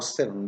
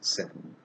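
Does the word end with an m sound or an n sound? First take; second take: n sound; m sound. First: The word ends with a clear n sound. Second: The word ends with an m-like sound. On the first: "how seven becomes" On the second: "becomes seven"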